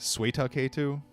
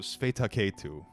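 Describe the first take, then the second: First: The name is said with a w sound. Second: The name is said with a v sound. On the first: "it's got a W" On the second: "I want to pronounce it with a V for some reason"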